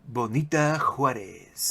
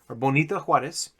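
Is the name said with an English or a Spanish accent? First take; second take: Spanish; English. First: The name is said with a Spanish accent. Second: The name is said with a plain English accent.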